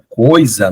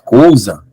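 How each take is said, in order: First: It is said with an 'oi' sound, southern style. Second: It is said with an 'ou' sound, northeastern style.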